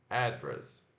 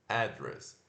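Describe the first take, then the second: No difference in how they are said.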